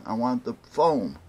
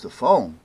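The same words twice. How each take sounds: First: FOAM stressed as a firm statement; firm request. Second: Loud, querying echo; retold puzzled echo. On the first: Retold or imitated. Caller tells clerk what he wants, firm on FOAM. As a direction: land on FOAM and let it fall. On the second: Paint clerk queries caller's request, puzzled. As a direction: imitate a clerk taken aback by the request.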